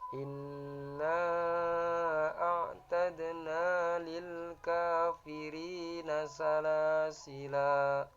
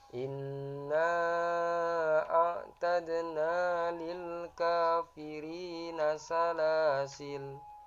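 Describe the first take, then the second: First: The last word ends on a lengthened vowel. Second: The last word ends on a bare consonant. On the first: "Boleh juga seperti ini" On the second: "Ketika sukun seperti ini"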